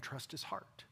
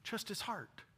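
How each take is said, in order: First: Much softer earnest words; soft plea. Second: Raised, still soft emphasis; higher repeat. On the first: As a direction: lean in quietly. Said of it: "When you can't see his hand". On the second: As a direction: lift it, insist gently. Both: Real, not acted.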